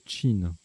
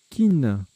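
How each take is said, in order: First: The word begins with a ch sound. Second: The word begins with a hard k sound.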